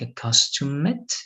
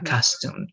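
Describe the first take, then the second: First: The ending is said as an extra syllable. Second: The ending is a bare d sound. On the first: The speaker calls it wrong. "it's not going to be like accustomed" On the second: The speaker calls it right. "It's just going to be"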